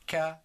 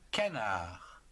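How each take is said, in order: First: "canard" broken into "ca" and "nard" with a clear pause; "canard" in two detached beats, ca / nard; split into syllables. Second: Said in the usual way. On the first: Shown as a demonstration. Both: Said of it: "Deux syllabes".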